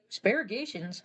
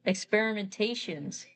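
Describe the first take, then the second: First: "asparagizations" slurred in place of experimentations, questioning; garbled pronunciation. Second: "experimentations" said slowly, every syllable in place; corrected pronunciation. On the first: Storyteller tripping over a long word, garbled pronunciation. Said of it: "Hello, excuse me, experimentations". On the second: Storyteller fixing a stumble on "experimentations", corrected pronunciation. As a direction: carefully sound out "experimentations". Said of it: "Hello, excuse me". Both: Real, not acted.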